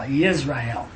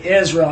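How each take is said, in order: First: The word begins with a 'yis' sound. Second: The word begins with an 'iz' sound. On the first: "That's a true pronunciation" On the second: "when I try to say Israel"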